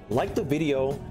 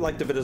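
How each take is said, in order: First: It is said slowly and clearly. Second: It is said quickly and rushed.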